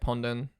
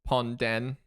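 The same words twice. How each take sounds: First: The two syllables are run together. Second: The two syllables are said apart. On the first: The speaker calls it right. "you pronounce it together" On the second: The speaker calls it wrong. "people just struggle to pronounce it because like"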